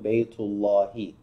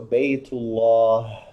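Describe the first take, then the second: First: The word ends with a final 'i' vowel. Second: The word ends without a final vowel. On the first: The speaker keeps going without stopping. "But if we were to keep going" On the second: The speaker stops here, at the end of the sentence. "when we stop in Arabic, we don't usually pronounce the vowel on the last letter"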